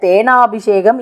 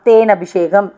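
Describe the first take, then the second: First: The syllable 'na' has a long vowel. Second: The syllable 'na' has a short vowel. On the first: The speaker calls it wrong. "தேனாபிஷேகம் இல்லை" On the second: The speaker calls it right. "தேன் அபிஷேகம் ஆகுமே"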